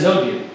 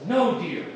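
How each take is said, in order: First: Quick, low-pitched husband reply; too-quick answer. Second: Soft, placating little answer; mildly meek, keep it small; meek husband reply. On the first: Husband dodging his wife's anger, answering too quickly. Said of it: "You said that a little too fast". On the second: Husband reassuring his wife about her dress, meekly. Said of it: "And he says". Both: Acted.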